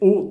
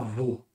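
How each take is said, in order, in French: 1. La syllabe est une simple voyelle o. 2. La syllabe commence par un son v. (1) "C'est O tout seul" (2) "c'est pas vo"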